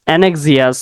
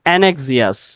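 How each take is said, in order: First: The word is said as an-ek-si-us. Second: The same.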